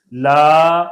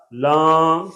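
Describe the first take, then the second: First: Said in the usual way. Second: لاں with a long nasal aa; nasalized vowel. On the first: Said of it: "پڑھیں گے صحیح اور غلط". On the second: Shown as a demonstration. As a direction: hum the aa of لاں in the nose. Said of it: "صحیح اور غلط".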